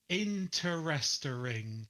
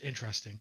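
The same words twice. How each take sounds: First: The word is drawn out into many syllables. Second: The word is said with fewer, compressed syllables. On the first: This is how Americans say it. The speaker calls it wrong. "split the word into like five syllables" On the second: This is how the British say it. The speaker calls it right. "instead of just interesting"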